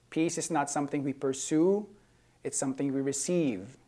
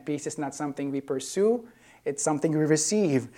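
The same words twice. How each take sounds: First: Said in the usual way. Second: "pursue" lifted, "receive" landed firmly; emphatic repeat. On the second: Real, not acted. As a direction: repeat it to drive home "receive". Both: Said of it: "I'm gonna say that again".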